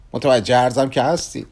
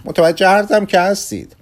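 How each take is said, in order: First: Said in the usual way. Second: Pleading. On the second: Acted. Kugelmass pleads to analyst.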